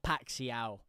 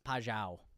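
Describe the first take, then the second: First: The middle consonant sounds like 'ks'. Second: The middle consonant sounds like 'zh'. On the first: The speaker calls it wrong. "It's not Paxiao" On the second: The speaker calls it right. "the X is like a, a zzz ... sound"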